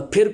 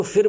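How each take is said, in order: First: Said in the usual way. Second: فر with an f in place of aspirated p; mispronounced پھر. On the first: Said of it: "کو فر بولتے ہیں". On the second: Shown as a demonstration. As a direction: imitate students saying فر for پھر. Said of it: "پھر کو فر بولتے ہیں".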